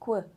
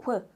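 The two takes are said the same way.

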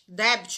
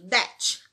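First: A B sound is heard in the word. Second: No B sound is heard in the word. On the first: The speaker calls it wrong. "É muito comum um aluno que está aprendendo inglês ler debit" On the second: The speaker calls it right. "você não fala esse B, ele é mudo"

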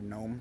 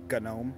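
First: The word starts with an N sound. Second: The word starts with a hard G sound.

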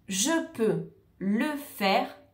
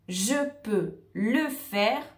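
The two takes are said the same way.

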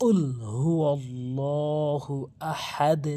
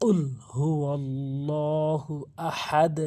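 The two takes are said the same way.

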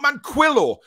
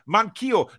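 First: The name does not sound like man, key, oh. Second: The name sounds like man, key, oh. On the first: The speaker calls it wrong. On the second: The speaker calls it right. "Manquillo is how it's said. ... You just say man and then key as in house key and O"

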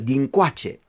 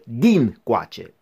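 First: The stress is on the second syllable. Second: The stress is on the first syllable. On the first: It means from this side, or more recent. "cu accentul pe a doua silabă" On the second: It means on this side, where the speaker is. "cu accentul pe prima silabă"

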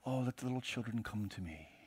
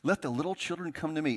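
First: It sounds soft and gentle. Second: It sounds stern and displeased.

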